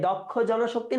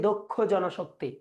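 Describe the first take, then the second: First: দক্ষ as "dawk-kho" in দক্ষ জনশক্তি; open first vowel. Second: দক্ষ as "dok-kho" in দক্ষ জনশক্তি; closed first vowel. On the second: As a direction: round o at the start of দক্ষ. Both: Shown as a demonstration. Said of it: "দক্ষ বলি না দক্ষ".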